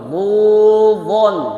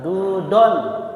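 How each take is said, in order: First: It starts with a heavy, emphatic dh sound. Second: It starts with a plain, light d sound. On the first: The speaker calls it right. "berikutnya dhudhun" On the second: The speaker calls it wrong. "bukan dudon"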